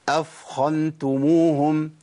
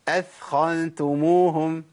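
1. صوت الثاء ثقيل ومفخم. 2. صوت الثاء خفيف وغير مفخم. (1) "كتير من الناس ... يفخم الثاء" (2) "هثبت لك الهيئه"

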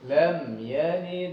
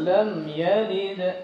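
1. Huruf d terakhir dilepas biasa dan langsung menyambung ke kata berikutnya. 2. Huruf d terakhir dilepas dengan gema, seperti tertahan. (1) "kalau kita sambung maka dia hanya berbunyi seperti d saja" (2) "kalau kita ingin berhenti kita baca lam yalid ya. Seperti ada hamzah di belakang"

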